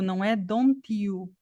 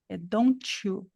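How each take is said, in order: First: The t and you stay separate, plain t. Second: The t and you merge into a ch sound. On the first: The speaker calls it wrong. "Aqui não é o D puro, não é don't you" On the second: The speaker calls it right. "você vai escutar um chiado aqui, ó. Tch"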